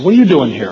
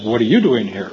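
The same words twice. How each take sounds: First: Louder, raised retold question; surprised question. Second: "you" lifted in a question thrown back; stress on YOU. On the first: Speaker greets Arnie at the trailer, surprised question. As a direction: blurt it out in mild surprise. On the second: Retold or imitated. Arnie asks the speaker back, stress on "you". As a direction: turn it round, leaning on "you".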